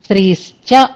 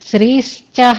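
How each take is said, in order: First: The word ends cleanly on 'cha' without breath. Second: The word ends with an extra breathy 'ha'. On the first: The speaker calls it right. "శ్రీశ్చ అని అనాలి" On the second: The speaker calls it wrong. "శ్రీశ్చహ రంగశ్చహ అనకూడదు. అక్కడ విసర్గలు అసలు ఉండకూడదు"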